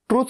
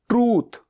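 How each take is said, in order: First: The vowel is said short. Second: The vowel is said long. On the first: The speaker calls it wrong. "ट्रुथ नहीं" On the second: The speaker calls it right. "ऊ की, बड़े ऊ की मात्रा"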